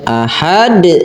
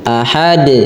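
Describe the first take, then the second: First: The vowel is drawn out long. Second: The vowel is kept short and plain. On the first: The speaker calls it wrong. "enggak, jadi itu panjang" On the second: The speaker calls it right. "Biasa saja ahad"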